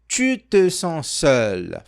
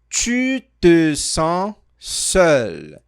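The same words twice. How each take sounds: First: The sentence is spoken at a quicker pace. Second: The sentence is spoken at a slower pace. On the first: "Foi rápido?" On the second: "Vou falar mais devagar"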